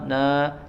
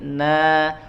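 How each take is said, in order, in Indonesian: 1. Vokalnya tidak diucapkan dengan jelas. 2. Vokalnya diucapkan dengan jelas dan terbuka. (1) "jangan na" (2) "fathahnya jelas na ya, ... tapi na"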